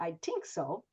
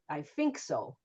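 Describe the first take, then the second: First: The word 'think' starts with a t sound. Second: The word 'think' starts with an f sound. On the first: "sometimes we get a T or a D" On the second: "Sometimes the T H is an F or a V"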